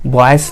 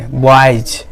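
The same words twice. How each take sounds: First: बॉयज ending in an unvoiced S, as "boys" with a hiss; बॉयज with a plain S at the end; wrong S ending. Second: बॉयज ending in a voiced Z/J; बॉयज with the plural S said as Z; final Z sound. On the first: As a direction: say बॉयज with S in place of Z. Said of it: "नहीं बोलेंगे". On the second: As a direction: end बॉयज on a buzz, not S. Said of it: "बॉयज नहीं बोलेंगे". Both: Shown as a demonstration.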